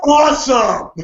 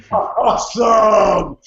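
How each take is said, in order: First: Awesome fired out higher and louder; quick joyful yelp of Awesome; excited burst. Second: Slow, drawn-out shout of Awesome; excited shout. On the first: Thrilled reaction to Rusev. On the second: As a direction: stretch out Awesome like a joyful cheer. Thrilled reaction to the news. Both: Retold or imitated.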